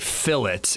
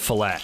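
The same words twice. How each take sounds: First: It is said the British way, with the T sounded. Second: It is said the American way, with a silent T. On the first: "you guys say fillet" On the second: "instead of fillet"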